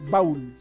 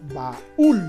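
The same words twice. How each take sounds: First: The stress falls on the first syllable. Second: The stress falls on the second syllable. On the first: The speaker calls it wrong. "pero no decimos baúl" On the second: The speaker calls it right. "sino decimos baúl"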